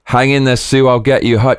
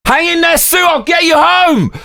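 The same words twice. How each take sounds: First: Said in the usual way. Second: Hammed-up heroic shout. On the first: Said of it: "this time from The Thing". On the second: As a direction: overblown action hero shout.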